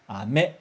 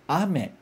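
First: Ame mit tiefem a und steigendem, stärkerem me; Ame: a schwach und tief, me steigt und wird stärker; ame, Bonbon. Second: Ame mit betontem, hohem a und fallendem me; ame: a stark und hoch, me schwächer und tiefer; ame, chuva. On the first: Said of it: "começo mais fraco no a e termino com o me mais forte". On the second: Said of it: "começo falando forte o a e depois eu desço". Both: Shown as a demonstration.

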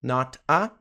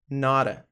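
First: "not a" as two separate words; unlinked words. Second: "nora" in one piece, tapped T; linked pronunciation. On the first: Teacher shows the words before linking, separated pronunciation. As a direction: keep not and a apart, T sounded. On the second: Teacher shows what not a becomes, linked pronunciation. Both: Shown as a demonstration. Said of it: "que vira nora".

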